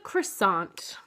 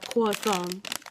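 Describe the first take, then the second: First: It is said with an ordinary English accent. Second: It is said with a put-on French accent.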